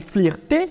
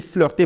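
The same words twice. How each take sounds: First: "flirter" with an ee vowel, fleer-tay; mispronounced flirter. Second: Said in the usual way. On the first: Shown as a demonstration. Teacher shows someone saying it wrong, mispronounced "flirter" as fleer-tay. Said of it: "au lieu de dire flirter".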